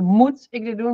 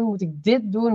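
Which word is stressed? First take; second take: moet; dit. First: The stress is on "moet". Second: The stress is on "dit".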